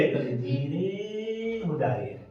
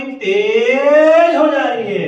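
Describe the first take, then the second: First: Much softer, slow and sung; quiet singsong demo. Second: Sung out louder and slow; singsong loud demo. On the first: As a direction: drop to a soft singsong. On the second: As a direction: let the voice swell loud. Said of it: "कभी तेज हो जा रही है". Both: Shown as a demonstration.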